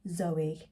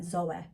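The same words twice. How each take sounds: First: The name is said in a careful, clear accent. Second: The name is said in a broad local accent. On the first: It is said so listeners know the name. "I'm saying it like that now because obviously I need you to know what the names are" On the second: It is how it sounds in everyday conversation. "if I was to say them with my normal accent"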